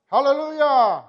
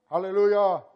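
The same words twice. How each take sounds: First: Loud, high ringing "Hallelujah!"; joking shouted hallelujah; hallelujah in Italian. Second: Said in the usual way. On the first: Shown as a demonstration. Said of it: "how you say it in Italian". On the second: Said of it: "how you say it in Hebrew".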